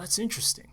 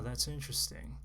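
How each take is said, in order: First: The voice is lively with varied pitch. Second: The voice is flat with little pitch change. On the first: The speaker truly finds it interesting. The speaker calls it right. "change the inflection of your voice" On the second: The interest does not come across. The speaker calls it wrong. "You can't say interesting with a flat tone"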